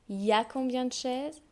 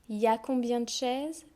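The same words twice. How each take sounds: No difference in how they are said.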